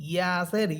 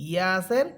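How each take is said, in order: The two takes are said the same way.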